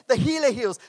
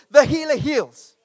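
First: Said in the usual way. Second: Emphatic preaching. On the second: Acted. Preacher repeating the key line.

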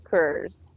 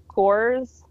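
First: "Coors" slow, with a reduced "er" vowel, like "kurz"; Coors, second take. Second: "Coors" said with a full, rounded "or" and a slight rise; "Coors" with a clear "kors" vowel and lifted end; Coors, first take. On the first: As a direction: drawl "Coors" so it sounds like "kurz". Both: Shown as a demonstration. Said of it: "see if you notice the difference in how I say it".

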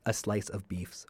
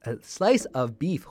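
First: Slurs "beefs" with a stray s; tongue slip. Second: Slowly and clearly, "A slice of beef" with a rising end; careful correction. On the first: Host fumbles his show name, "beefs" slipped. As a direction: trips over "a slice of beefs". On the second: Host corrects his show name, slowly and carefully. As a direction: fixes "beef" without the s, deliberately. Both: Real, not acted. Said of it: "can't even get my name out".

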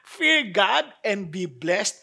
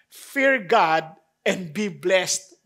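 First: Fear God and be blessed turned into a slow incredulous question; mock disbelief. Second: Slow, weighty Fear God and be blessed with a rise on Fear; slow title reading. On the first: Preacher echoing the title as a puzzled listener, mock disbelief. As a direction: echo the title back as if you can't believe it. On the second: Preacher announcing the sermon title to the congregation, slow and weighty. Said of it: "ang pamagat po ng ating pong talakayin". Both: Shown as a demonstration.

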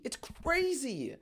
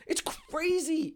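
First: Much softer, slow, trailing off; hushed awe. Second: Soft laugh through the words, slow; laughing disbelief. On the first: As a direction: let it fade to a hushed murmur. Repeats it, trailing off. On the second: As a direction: laugh it out, amazed. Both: Real, not acted.

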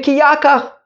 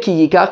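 First: Yakach with an a first, pitched high; ya- reading. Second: Yikach with an i first, quick; yi- reading. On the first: Teacher argues for father's reading, high-pitched Yakach as YAH-kach. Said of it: "we should read it Ki Yakach". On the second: Teacher rules out the reading, quick Yikach as YEE-kach. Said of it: "we shouldn't read it Ki Yikach". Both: Shown as a demonstration.

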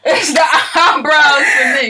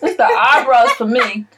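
First: Slow, high, laughing cry; laughing shout. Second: Laughing. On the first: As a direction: wail it through laughter. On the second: Laughing at the eyebrows. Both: Real, not acted.

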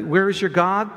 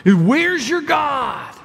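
First: Said in the usual way. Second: Slow, higher, louder sneering enemy; enemy mocking the psalmist, slow sneering taunt. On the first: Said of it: "same taunt, now just read". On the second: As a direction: taunt him like the psalmist's enemies. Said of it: "like he's speaking".

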